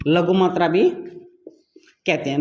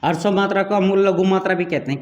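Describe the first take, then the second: First: Drawn out slowly, each word leaned on; slow teacherly drawl on लघु मात्रा; slow emphatic repeat. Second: Said in the usual way. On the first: Shown as a demonstration. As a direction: stretch it out so it sticks.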